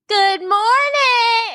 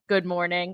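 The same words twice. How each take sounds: First: It is screamed in a loud, high voice. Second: It is said calmly in a normal voice.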